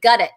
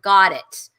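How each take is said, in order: First: The first vowel sounds like 'uh'. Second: The first vowel sounds like 'ah'. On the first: This is the speaker's own habitual way of saying it. "I say gut it" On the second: This is the way others expect it to be said. "instead of got it"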